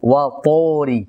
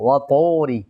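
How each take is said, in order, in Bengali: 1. 'ত'-এর পরের স্বরধ্বনিটি একটি পূর্ণ 'o'-র মতো শোনায়। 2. 'ত'-এর পরের স্বরধ্বনিটি একটি পূর্ণ 'o'-র মতো শোনায়।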